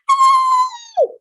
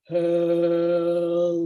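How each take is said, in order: First: It is said in a very high voice. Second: It is said in a very low voice.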